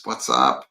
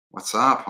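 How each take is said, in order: First: Much lower, put-on "what's up"; deep mock greeting. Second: Said in the usual way. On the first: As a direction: drop the voice for a dude-style greeting. Reads viewer greeting aloud.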